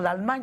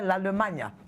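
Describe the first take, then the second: First: It is said with a standard French pronunciation. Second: It is said with a Lingala-influenced pronunciation. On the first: "au lieu de dire l'Allemagne" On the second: "on dirait l'Allemagne"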